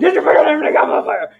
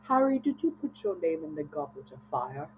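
First: It is said in an aggressive, shouting manner. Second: It is said in a calm, quiet manner.

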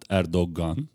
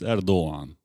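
First: The middle g is sounded as a hard g. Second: The middle g is sounded as a soft g. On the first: The speaker calls it wrong. "It's not Erdogan, as many people say" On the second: The speaker calls it right. "It's G, but it's soft G"

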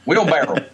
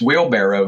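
First: The word has a Southern, nonstandard pronunciation. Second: The word has a standard, careful pronunciation. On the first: The speaker calls it wrong. "not wheelbarrow" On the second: The speaker calls it right. "but it's wheelbarrow"

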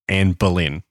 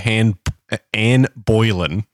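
First: The surname is pronounced like Boleyn. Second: The surname is pronounced like Boylan. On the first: The speaker calls it right. "Anne Boleyn, not Anne Boylan" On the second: The speaker calls it wrong. "You said Anne Boylan"

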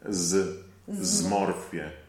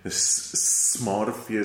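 First: The S is soft and voiced. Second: The S is sharp and voiceless. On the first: The speaker calls it right. "the S is very smooth and sweet and voiced" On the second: The speaker calls it wrong. "Never say smorfie"

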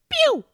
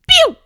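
First: It is said with low energy. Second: It is said with high energy. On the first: The speaker calls it wrong. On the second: The speaker calls it right.

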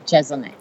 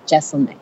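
First: The middle consonant sounds like a z. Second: The middle consonant sounds like an s. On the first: The speaker calls it wrong. "no, it's S" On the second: The speaker calls it right. "it's S. It's Jeselnik. Like Wrestle-Nick"

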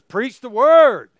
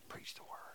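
First: It is said forcefully, with strong emphasis. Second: It is said casually, like a quiet secret.

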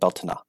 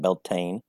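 First: It is said the Gaelic way. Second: It is said with a Southern US drawl.

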